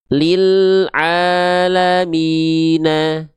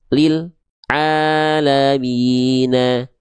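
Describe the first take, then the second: First: The L sound flows on briefly before the vowel. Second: The L sound is cut off abruptly. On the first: The speaker calls it right. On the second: The speaker calls it wrong.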